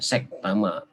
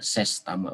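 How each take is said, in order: First: The first syllable ends with a k sound. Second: The first syllable ends with an s sound. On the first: The speaker calls it wrong. "bukan sek tama ya" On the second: The speaker calls it right. "Sekretaris utama ses tama"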